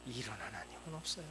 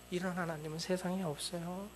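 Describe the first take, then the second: First: Quiet. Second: 이런 하나님은 세상에 없어요 with stress on 이런 and 세상에; emphatic restatement. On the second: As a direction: lift it on 이런 하나님은 and drive 세상에 home. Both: Shown as a demonstration.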